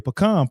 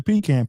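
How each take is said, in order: First: PECAN said puh-KAHN; pecan the Dallas way, puh-KAHN; local pronunciation. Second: PECAN said PEE-can; pecan as PEE-kan, the other way; other people's pronunciation. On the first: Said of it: "We say pecan". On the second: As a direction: say pecan with a long EE and flat A. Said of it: "some people say pecan". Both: Shown as a demonstration.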